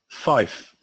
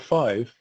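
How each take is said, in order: First: It ends with an f sound. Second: It ends with a v sound.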